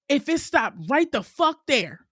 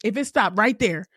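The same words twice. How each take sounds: First: "right the fuck there" drawn out slow and higher, each word hit; slow emphatic repeat. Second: Said in the usual way. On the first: Shown as a demonstration.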